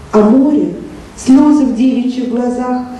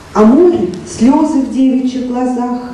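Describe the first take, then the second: Both takes have the same delivery.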